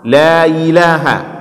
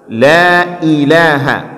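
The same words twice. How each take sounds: First: The 'i' blurs into a y-like glide. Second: The 'i' is sounded clearly and separately. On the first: The speaker calls it wrong. "Jangan kita jadikan i itu seperti ia yang berkasrah" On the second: The speaker calls it right. "Tapi harus jelas"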